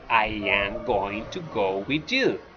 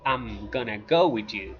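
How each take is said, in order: First: Each word is said fully and separately. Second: The words are contracted and reduced together. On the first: This is how Canadians say it. "in Canadian English, they say" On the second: This is how Americans say it. "in American English, they say"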